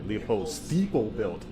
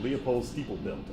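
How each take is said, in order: First: The name is said at a normal pace. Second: The name is said quickly.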